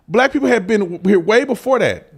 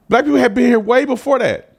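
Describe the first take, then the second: No difference in how they are said.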